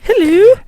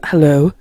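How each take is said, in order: First: It is said in her normal voice. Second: It is said in a put-on deep man's voice.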